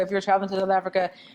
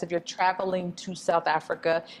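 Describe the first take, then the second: First: It is said very fast. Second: It is said more slowly.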